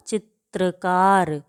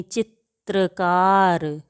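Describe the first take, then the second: First: चित्रकार slowly with त and र heard; slow demonstration. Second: चित्रकार very slow, त्र split clearly; syllable by syllable चित्रकार; slow demonstration. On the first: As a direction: model चित्रकार deliberately. (चित्रकार धीमे, त और र अलग) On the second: (चित्रकार बहुत धीमे, त्र साफ़) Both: Shown as a demonstration. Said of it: "बोल कर देखते हैं".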